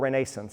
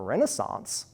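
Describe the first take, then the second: First: The word has a Southern regional pronunciation. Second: The word has a general, non-regional pronunciation.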